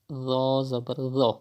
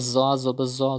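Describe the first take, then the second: First: The consonant has no whistling, hissing sound. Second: The consonant has a whistling, hissing sound. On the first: The speaker calls it right. "Tho is pronounced without whistle sound, like this" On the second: The speaker calls it wrong. "it is not correct because you are reading with whistle sound"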